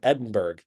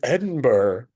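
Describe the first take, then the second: First: The ending is said as 'burg' with a g. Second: The ending is said as 'burra' without a g. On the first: "So I pronounce it Edinburgh" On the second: "They're like, "It's Edinburgh,""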